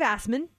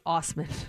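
First: The first vowel sounds like the word 'ass'. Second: The first vowel sounds like 'oss' in 'boss'. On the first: The speaker calls it wrong. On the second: The speaker calls it right. "He pronounces it Osman"

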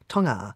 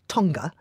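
First: The G is not pronounced as a hard stop. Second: The G is pronounced as a hard stop. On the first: "other news organisations go Tonga, Tonga" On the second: "I say Tonga with a hard G"

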